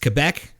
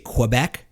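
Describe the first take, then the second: First: The word starts with a plain 'k' sound. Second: The word starts with a 'kw' sound. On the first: The speaker calls it right. "Do you see a W in there?" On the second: The speaker calls it wrong. "Like you throw a W in there?"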